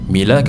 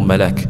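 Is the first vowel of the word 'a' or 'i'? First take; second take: i; a. First: The first vowel is an 'i' sound. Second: The first vowel is an 'a' sound. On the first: "dengan mim, kasrah mim" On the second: "dengan fathah mim"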